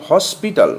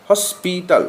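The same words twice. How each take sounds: First: Said in the usual way. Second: hospital slowly, in three separate beats; broken into syllables. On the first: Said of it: "একটানে উচ্চারণ". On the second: Shown as a demonstration. Teacher showing three syllables, hospital pulled apart slowly. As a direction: pause between the syllables of hospital. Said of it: "ভেঙে ভেঙে উচ্চারণ করতে হয়".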